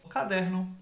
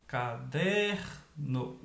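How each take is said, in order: First: Said in the usual way. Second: CADERNO slowly, with DER held long; stretched stressed syllable. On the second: Shown as a demonstration. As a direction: hold the DER in caderno, then drop the NO. (caderno devagar, alongando o DER) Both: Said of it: "Pronuncia a palavra como se estivesse chamando ela".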